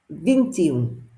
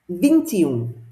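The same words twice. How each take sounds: No difference in how they are said.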